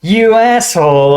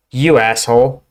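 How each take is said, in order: First: "You asshole" thrown out higher, louder and slower, actually angry; really mad. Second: Light, friendly "You asshole" with a rising end, like greeting a pal. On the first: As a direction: spit out "You asshole" at someone you're furious with. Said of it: "you are really mad at someone". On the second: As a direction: say "You asshole" as a warm hello. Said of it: "you're greeting a friend". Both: Shown as a demonstration.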